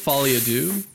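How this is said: It is said with an American-sounding pronunciation. The speaker calls it wrong. "It's a little Americanized the way I said it"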